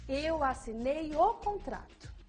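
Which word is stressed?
contrato. The word contrato is emphasized. "em seguida a palavra contrato"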